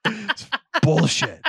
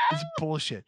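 First: High, drawn-out exasperated cry; exasperated outburst. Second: Much softer, resigned aside; quiet deflated repeat. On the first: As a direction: burst out in outrage, stretching the words. Comic outburst over the word. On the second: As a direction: say it under your breath after the outburst. Deflated repeat after the outburst. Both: Real, not acted.

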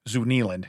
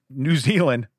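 First: "Zoo Nealand" with the Z and N swapped; swapped first sounds. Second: Said in the usual way. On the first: Shown as a demonstration. Host jokes on the country name with a spoonerism. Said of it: "So the Wizard of Zoo". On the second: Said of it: "Zoo Nealand".

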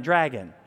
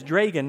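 First: "dragon" with a short A, as DRAG-un; first syllable of "dragon" as in "drag"; standard pronunciation. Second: "Dragon" with a long A, as DRAY-gun; first syllable of "Dragon" rhymes with "day"; regional pronunciation. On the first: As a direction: say "dragon" with the vowel of "cat". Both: Shown as a demonstration. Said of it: "she says "Dragon," not "dragon".

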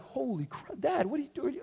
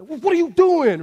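First: Put-on hushed, high-pitched startled child; shocked little kids. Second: High, loud, drawn-out dad yell; retold yell. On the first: Little boys reacting to dad's yell, hushed shock. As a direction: imitate stunned kids, softer and higher. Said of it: "they looked at me kinda like". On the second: Dad yelling at misbehaving boys, loud and exasperated. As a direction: re-enact an angry parent's outburst. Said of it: "I yelled. I was like".

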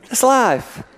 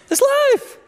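First: Said in the usual way. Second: It's life. pitched very high and squeaky, falling. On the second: Shown as a demonstration. Preacher repeats the line in a comic high squeak.

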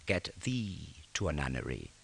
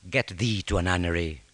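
First: Quiet and slow. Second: Said in the usual way. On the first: Shown as a demonstration. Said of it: "¿Os acordáis de esto?". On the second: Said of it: "Significa convento y significa casa de prostitución".

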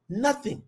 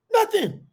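First: Said in the usual way. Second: Much higher, punched emphatic nothing; emphatic repeat. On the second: Shown as a demonstration. Preacher stressing his mother refuses everything, high emphatic. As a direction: fling the word up high for emphasis.

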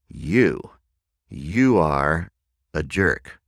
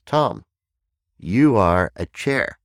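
First: Lightly acted adult accusation, usual pitch; grown-up. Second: Put-on high, loud child's pronouncement; little child. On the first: Someone insults you in grown-up context, lightly acted accusation. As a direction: say it deliberately, pausing between the words. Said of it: "a grown-up context". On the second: Child names speaker a chair, high kid voice. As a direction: announce it like a small kid, drawn out at the end. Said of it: "this little child looks up at me".

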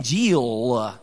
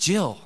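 First: Jill stretched slowly into several syllables, "Jee-ul-uh"; mock the Alabama Jill as a long drawn-out word; exaggerated Southern drawl. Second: Said in the usual way. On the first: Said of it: "like, four syllables". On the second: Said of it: "it's just Jill".

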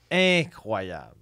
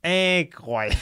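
First: Drawn-out, hammy delivery of INCROYABLE; showy acting. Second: INCROYABLE pitched higher in a put-on voice; showy acting range. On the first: Comedian boasting of his acting range, showy and drawn out. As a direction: stretch INCROYABLE out like a show-off actor. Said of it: "un registre de jeu". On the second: Comedian showing off his acting range, hammed up and high. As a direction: overact INCROYABLE, high and emphatic. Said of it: "un registre de jeu incroyable". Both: Shown as a demonstration.

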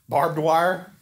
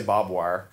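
First: "Barbed wire?" with the r and the d both sounded, a questioning rise; checking the northern "Barbed wire?", full r and d; "Barbed wire?" spelled out, every consonant crisp; careful pronunciation. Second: "barbed wire" said as "bob wire", the r and d dropped; Southern "barbed wire", bob-wire style; "barbed wire" drawled like "bob wire", Arkansas style; Arkansas pronunciation. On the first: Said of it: "what do y'all say?". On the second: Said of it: "From Arkansas, sorry". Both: Shown as a demonstration.

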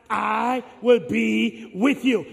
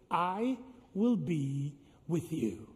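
First: Slow, half-sung, swelling refrain. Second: Slow, quiet, every word weighed; slow solemn refrain. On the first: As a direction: chant it out with the crowd. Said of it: "Last time, everybody". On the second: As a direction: lay it down softly and slowly. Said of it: "You say it with me now". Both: Shown as a demonstration.

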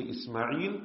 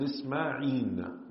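First: "Ismail" ending on an l sound; usual l ending. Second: "Isma'in" ending on an n sound; noon ending. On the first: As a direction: pronounce "Ismail" slowly with a clear final l. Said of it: "You can say Ismail and Isma'in". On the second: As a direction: pronounce "Isma'in" slowly with a clear final n. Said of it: "with the noon at the end". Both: Shown as a demonstration.

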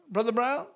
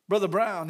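First: Brown lifted in doubt, Brother Brown?; questioning rise. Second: Said in the usual way. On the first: Real, not acted. Preacher second-guessing the name, rising doubt. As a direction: ask it, unsure of the name.

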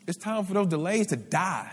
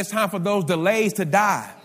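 First: Said in the usual way. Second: Louder, insistent "It's time for those delays to die"; emphatic repeat. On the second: Real, not acted. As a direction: drive home "those delays to die" with more volume.

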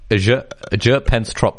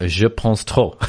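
First: "Je Pense Trop" slowly, as English "pence trop"; "Je Pense Trop" badly anglicised, English R and vowels; deliberately anglicised French. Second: "Je Pense Trop" slowly in showy French; "Je Pense Trop" with French vowels and silent final P; pretentious French pronunciation. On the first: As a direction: say "Je Pense Trop" with a sounded final P. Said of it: "That's more like it". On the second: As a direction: say "Je Pense Trop" as "zhuh ponss troh". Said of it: "You pretentious twat". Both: Shown as a demonstration.

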